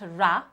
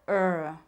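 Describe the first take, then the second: First: The consonant is followed by an added vowel. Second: The consonant is said alone with no vowel. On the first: The speaker calls it wrong. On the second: The speaker calls it right.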